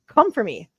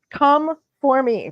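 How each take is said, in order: First: Said in the usual way. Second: "Come for me" drawn out slowly, each word weighted; slow defiant challenge. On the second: Shown as a demonstration. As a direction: dare them, slowly.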